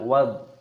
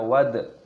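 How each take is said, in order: First: The final consonant is soft with no echo. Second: The final consonant bounces with an echo. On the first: The speaker calls it right. "kita baca wad" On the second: The speaker calls it wrong. "jangan kita baca wad"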